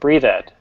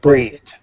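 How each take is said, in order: First: The ending is an extra 'ed' syllable. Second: The ending is a single consonant sound. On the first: The speaker calls it wrong. "you said breathe ed. We never say ed" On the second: The speaker calls it right.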